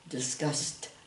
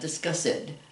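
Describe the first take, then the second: First: The ending is a short T sound. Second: The ending adds an extra syllable. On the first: The speaker calls it right. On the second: The speaker calls it wrong.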